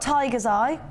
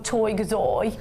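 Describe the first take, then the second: First: It is said in a plain standard accent. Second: It is said in a Birmingham accent.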